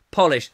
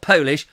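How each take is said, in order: First: "polish" with a short O; polish as in wax. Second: "Polish" with a long OH; Polish as nationality. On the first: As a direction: say "polish" as POLL-ish. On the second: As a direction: say "Polish" as POE-lish. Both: Shown as a demonstration. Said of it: "Not Polish, polish".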